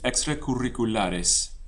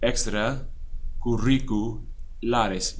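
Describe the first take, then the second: First: The word is said smoothly in one piece. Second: The word is split into two separate parts.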